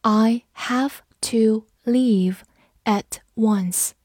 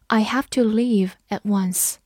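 First: Slow, evenly separated words; word-by-word teacher's model sentence; slow reading. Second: Said in the usual way. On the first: Shown as a demonstration. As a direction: read it slowly, pausing between words. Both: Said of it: "我们慢读一遍".

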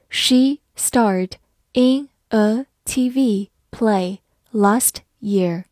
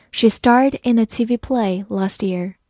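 First: Very slow, each word spelled out clearly; slow reading. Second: Said in the usual way. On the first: Shown as a demonstration. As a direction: read it slowly for learners to follow. (慢速跟读示范) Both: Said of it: "好，慢慢来读".

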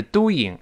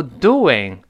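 First: "doing" as "do-ing", no w between vowels; without the glide. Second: "doing" as "do-wing", with a clear w; added w glide. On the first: Teacher shows the version to avoid, doing without glide. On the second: Teacher gives a parallel example, doing with w glide. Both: Shown as a demonstration. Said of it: "正如doing不是doing".

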